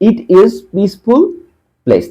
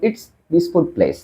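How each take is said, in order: First: "It is" is said as two full words. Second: "It is" is contracted to "it's". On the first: The speaker calls it wrong. "ইট ইজ এভাবে তো বলবেন না" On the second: The speaker calls it right. "বলবেন ইটস"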